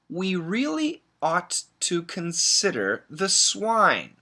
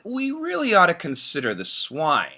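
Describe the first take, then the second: First: The sentence is read slowly. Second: The sentence is read very quickly. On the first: "Let me read it slowly" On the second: "very, very, very, very fast"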